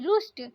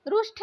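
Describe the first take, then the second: First: रुष्ट ending in plain t; no puff closing रुष्ट; correct pronunciation. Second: रुष्ट ending in aspirated th; wrong pronunciation. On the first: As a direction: say रुष्ट as "rusht". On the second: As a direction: say रुष्ट as "rushtha". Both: Shown as a demonstration. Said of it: "रुष्ट नहीं".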